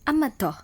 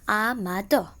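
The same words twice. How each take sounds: First: The word is said smoothly as one unit. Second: The word is split into separate syllables. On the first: "I repeat" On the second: "And in syllables"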